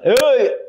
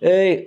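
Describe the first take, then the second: First: It is shouted very loudly, with exaggerated force. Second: It is shouted at an ordinary, moderate loudness.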